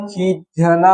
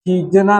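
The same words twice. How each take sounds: First: खींचना said "kheejh-na"; heavy "jh" in खींचना, making it kheejh-na; aspirated jh. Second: खीजना with plain "j"; no puff on the "j" of खीजना; j without aspiration. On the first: Teacher correcting the consonant, "jh" in खींचना. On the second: Teacher showing a wrong consonant, plain "j" in खीजना. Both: Shown as a demonstration. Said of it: "झ होगा".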